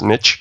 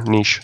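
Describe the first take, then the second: First: The word is said with an American pronunciation. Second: The word is said with a Canadian pronunciation. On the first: "for your American viewers" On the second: "I'm Canadian there"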